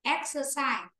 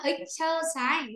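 First: "Exercise" begun with an open e; correct first vowel. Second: "exercise" begun wrongly with an i sound; mispronounced first vowel. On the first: Teacher gives the right form, "Exercise" starting ek-. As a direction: say "Exercise" as ek-suh-sai. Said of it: "mà phải là e". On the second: Teacher shows what to avoid, "exercise" starting ik-. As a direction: say "exercise" as ik-suh-sai. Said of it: "Không phải là exercise". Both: Shown as a demonstration.

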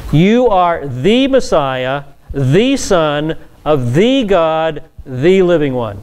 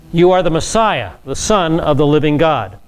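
First: Very slow, every "the" stressed as "thee"; spaced-out, deliberate weight on each "the"; emphatic THE. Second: Said in the usual way. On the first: Shown as a demonstration. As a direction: hammer each "the" as a long "thee", phrase by phrase. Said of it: "the definite article stresses individual identity".

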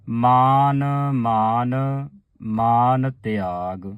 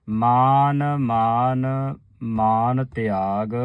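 First: Chanted, hold each ਮਾਨ long before ਤਿਆਗ; slow chant. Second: Chanted, ਮਾਨ ਮਾਨ held very slowly, then ਤਿਆਗ; chanted, sustain ਮਾਨ ਮਾਨ long and steady. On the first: Teacher chanting slowly, showing the pause at ਤਿਆਗ. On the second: Chanted, teacher repeating ਮਾਨ ਮਾਨ slowly for the sangat. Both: Shown as a demonstration. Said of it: "ਤਿਆਗ ਤੇ ਵਿਸਰਾਮ ਲਾਉਣਾ ਹੈ".

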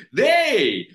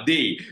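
First: Loud, high Malaysian slang call; Malaysian slang "they". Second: Said in the usual way. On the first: Shown as a demonstration. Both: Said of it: "jangan pakai they".

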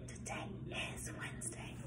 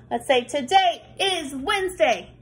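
First: Soft unvoiced whisper. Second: Said in the usual way. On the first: Shown as a demonstration. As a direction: whisper it like a secret.

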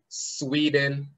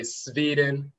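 First: Sweden with a clear English w, drawn out slowly; pronounced with W. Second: Sweden as SVEE-den; pronounced with V. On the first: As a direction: say Sweden as SWEE-den. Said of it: "the W and the V interchange". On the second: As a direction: say Sweden with a v in place of the w. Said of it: "or they'll say Sweden". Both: Shown as a demonstration.

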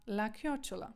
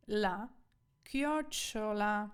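First: Said in the usual way. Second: Chiocciola drawn out very slowly, syllable by syllable; slow teaching pronunciation of chiocciola; sounded out. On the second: Shown as a demonstration. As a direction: stretch out chiocciola for learners. Teacher sounds out a new word.

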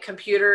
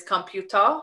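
First: Said in the usual way. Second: Computer said the South Korean way; "computer" with a Korean accent; Korean pronunciation. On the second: Shown as a demonstration. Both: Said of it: "a lot of English-based words".

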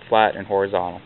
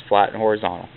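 Both takes have the same delivery.

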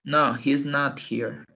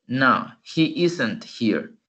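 First: Slow "he's not here", stress on "not"; slow other form. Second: Slow "he isn't here"; slow model. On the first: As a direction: model the other form slowly. (otra forma, lenta) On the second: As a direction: model it slowly. (forma lenta con "isn't") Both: Shown as a demonstration. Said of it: "Y la otra forma".

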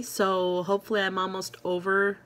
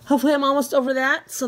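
First: Said in the usual way. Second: Higher, louder, fast and bright; excited hopeful. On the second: Real, not acted. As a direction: rush it out with hope. Repeats hope phrase, brighter.

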